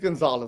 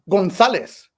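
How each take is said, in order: First: The name is pronounced the English way. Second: The name is pronounced the Spanish way.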